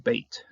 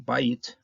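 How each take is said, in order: First: The word has the lowered one-syllable vowel, beit. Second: The word has the fuller two-syllable vowel, bayit. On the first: The word is tied to the next word. "to Bait" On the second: The word stands on its own. "the vowel sound goes down from Bait"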